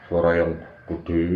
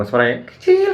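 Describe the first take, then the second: First: Low, slow, soft big voice. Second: Demonstrating a small, thin voice; small high voice on "kecil". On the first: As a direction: drop down into a big, drawn-out voice. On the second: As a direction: squeeze the key word up into a little voice. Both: Shown as a demonstration.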